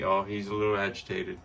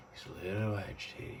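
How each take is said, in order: First: Said in the usual way. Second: Repeated much softer, almost to herself. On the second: Real, not acted. To the pet dragon, a soft murmured repeat. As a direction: say it again under your breath.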